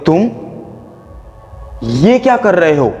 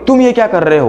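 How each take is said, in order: First: There is a short pause after the first word. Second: It is said straight through without a pause. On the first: Tension is built before the rest. The speaker calls it right. "मैंने तुम बोलने के बाद थोड़ा pause लिया" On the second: No tension is built. The speaker calls it wrong. "यहां पे अपने पॉज लिया नहीं"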